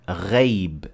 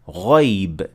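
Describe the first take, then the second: First: The first letter sounds thin and light. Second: The first letter sounds full and heavy. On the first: The speaker calls it wrong. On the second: The speaker calls it right. "we say"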